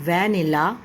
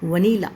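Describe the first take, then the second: First: The first syllable sounds like van. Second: The first syllable is a short vuh. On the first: The speaker calls it wrong. "वैन को देख के इसकी pronunciation वैनिला करने लग जाते हैं" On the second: The speaker calls it right. "The correct आपकी pronunciation वो है वनीला"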